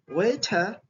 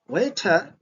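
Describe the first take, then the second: First: It is said with a British accent. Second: It is said with a British accent.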